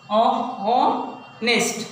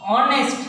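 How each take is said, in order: First: ऑनेस्ट stretched very slowly as ऑ-नेस्ट; slow classroom demo of ऑनेस्ट; syllable by syllable. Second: Said in the usual way. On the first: Shown as a demonstration. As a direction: break ऑनेस्ट into its two beats. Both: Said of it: "ये three times break हुआ है".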